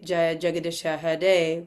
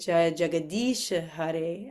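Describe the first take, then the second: First: The long vowels are cut short. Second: The long vowels are stretched out. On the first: The speaker calls it wrong. "we wouldn't say" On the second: The speaker calls it right. "we would say ... the two E's, really extends that"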